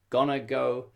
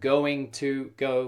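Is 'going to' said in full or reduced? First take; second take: reduced; full. First: Going to is reduced to gonna. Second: Going to is said fully with both words.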